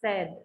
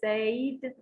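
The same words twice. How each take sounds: First: The vowel sounds like the e in bed. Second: The vowel sounds like the ay in say. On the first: The speaker calls it right. "only e, the sound is said" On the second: The speaker calls it wrong. "don't say said when it is in the past"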